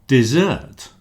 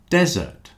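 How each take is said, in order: First: The stress is on the second syllable. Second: The stress is on the first syllable. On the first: To abandon. "with one S, but the stress on the second syllable" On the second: A large area of sand. "the stress at the beginning of the word"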